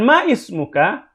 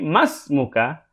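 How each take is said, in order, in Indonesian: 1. Huruf vokal di awal ismuka dilafalkan secara terpisah. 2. Huruf vokal di awal ismuka dihilangkan dan disambung. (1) "bukan ma ismuka" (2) "tapi masmuka"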